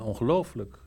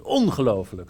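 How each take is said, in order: First: The stress falls on a later syllable. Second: The stress falls on the first syllable. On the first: This is the familiar, customary way of saying it. The speaker calls it right. "ik ben gewend aan" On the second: It is meant to grab attention immediately. The speaker calls it wrong. "Maar het is nu ongelooflijk. Dus je moet meteen binnenkomen"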